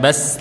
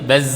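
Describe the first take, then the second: First: The final sound is mixed with a hissy s. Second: The final sound is a buzzing z without hiss. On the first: The speaker calls it wrong. "ada campuran sinnya sedikit" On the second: The speaker calls it right. "Enggak ada asnya tapi baz"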